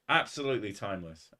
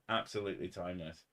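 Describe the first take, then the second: First: Said in the usual way. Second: Softer, a bit faster echo of "Absolutely timeless"; quiet echo. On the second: Shown as a demonstration. Streamer echoing his own praise softly to chat, softer. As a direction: repeat "Absolutely timeless" under your breath, quickly.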